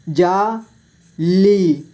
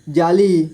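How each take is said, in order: First: जाली split slowly into जा, ली; syllable by syllable. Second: Said in the usual way. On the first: Shown as a demonstration. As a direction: stretch and separate जा and ली in जाली. (जाली को तोड़कर धीरे: जा, ली) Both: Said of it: "इस तरह से आपको".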